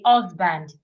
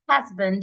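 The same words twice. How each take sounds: First: The word begins without an H sound. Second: The word begins with an H sound. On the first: The speaker calls it wrong. "you usually remove it" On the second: The speaker calls it right. "Instead of saying"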